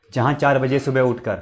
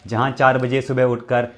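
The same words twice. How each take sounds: The two takes are said the same way.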